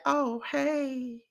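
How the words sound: The greeting sounds flat and cold.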